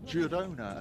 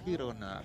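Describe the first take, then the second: First: The name is pronounced the English way. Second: The name is pronounced the Spanish way. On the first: "you've gone with the pronunciation of Girona" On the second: "the Spanish Girona"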